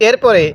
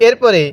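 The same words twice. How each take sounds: No difference in how they are said.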